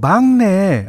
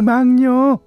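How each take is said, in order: First: The word ends with the sound 'nae'. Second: The word ends with the sound 'nyeo'. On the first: The speaker calls it right. "막녀가 뭐요? 아이, 막내요" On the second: The speaker calls it wrong. "엄마는 막내를 막녀라고 불렀다"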